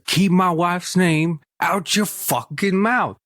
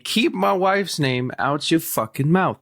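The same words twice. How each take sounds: First: Slow, high, drawn-out mock yell; hammed-up Will Smith snapping; slow high parody of an angry celebrity; imitating Will Smith. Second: A touch higher, slower mock yell; half-hearted Will Smith impression; Will Smith quote retold. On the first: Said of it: "that whole thing with the". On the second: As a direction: lightly replay the angry line. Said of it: "yell at Chris Rock saying".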